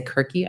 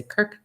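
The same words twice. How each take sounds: First: "Kirky" said with two syllables, KIR-kee; wrong pronunciation. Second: "Kirk" said as one short syllable, no final vowel; right pronunciation. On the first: Explaining how not to say her chosen name, "Kirky" in two syllables. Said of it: "I don't say Kirky". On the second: Explaining how she says her chosen name, "Kirk" in one syllable. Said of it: "I just say Kirk". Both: Shown as a demonstration.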